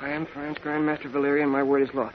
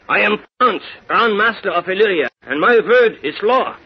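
First: It is said in the speaker's plain accent. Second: It is said with a German accent.

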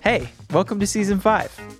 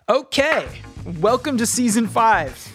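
First: It is said with calmer, lower energy. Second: It is said with very high energy.

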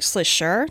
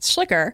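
First: The name is said with a German pronunciation. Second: The name is said with an English pronunciation. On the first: This is how it is said in Germany. The speaker calls it right. "but in German, it's actually more like Schlicher" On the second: This is how the family says it. The speaker calls it wrong. "So we would say Schlicher"

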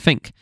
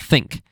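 First: The word is said with an Essex accent. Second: The word is said with a standard accent. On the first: "I said think" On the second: "not think"

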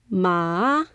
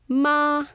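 First: The pitch dips down and then rises. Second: The pitch rises from low to high. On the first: It means horse. "So it goes up, then down, then up" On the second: It means hemp. "This tone goes up"

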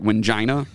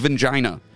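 First: The name begins with a W sound. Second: The name begins with a V sound. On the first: "it looks like Wingina" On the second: "if you think about the Europeans with their W's and the V, his name's Vingina"

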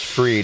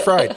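First: The name is said with the vowel of 'free'. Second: The name is said with the vowel of 'fry'. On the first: This is the name's actual pronunciation. "But I'm sure it's Fried" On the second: It sounds like the bank is fried. "I love the Fried because it's like the bank is fried"

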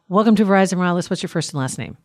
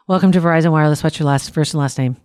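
First: It is said with some emotion. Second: It is said flatly, with little emotion.

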